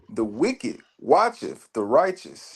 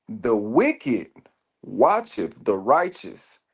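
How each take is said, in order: First: It is read at normal, faster pace. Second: It is read slowly.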